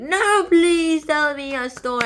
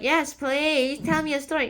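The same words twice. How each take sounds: First: Loud, slow, high hammed-up plea; insistent begging. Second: Higher-pitched, mildly pleading acted request; eager request. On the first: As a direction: beg loudly, dragging the words out. Lady begs after being refused. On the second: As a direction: ask eagerly, lifting the pitch. Lady eagerly asks for a story.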